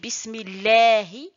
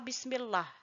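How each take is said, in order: First: The word ends with a short 'i' vowel. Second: The word ends without a final vowel. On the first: The speaker calls it right. "Je dis Bismillahi" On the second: The speaker calls it wrong. "et non pas Bismillah"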